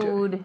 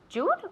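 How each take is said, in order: First: The word begins with a 'y' sound. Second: The word begins with a 'j' sound. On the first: The speaker calls it right. "Be careful with that sound" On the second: The speaker calls it wrong. "Jude or"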